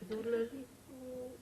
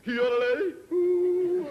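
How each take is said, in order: First: High yodel fading away softly; faint copy of a yodelled shout; bad echo. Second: Very high, loud yodelled call; search party yodel. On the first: Mountain echoing the search party, high yodel dying away. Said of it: "It's a very bad echo". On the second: Acted. Search party calling up to the skier, loud high yodel. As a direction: belt a yodel across the mountains. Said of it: "they send out a search party".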